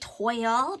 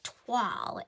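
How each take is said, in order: First: The vowel sounds like the one in 'boil'. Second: The vowel sounds like the one in 'wall'. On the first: The speaker calls it wrong. "we say toil" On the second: The speaker calls it right. "as if it were written T W A L L"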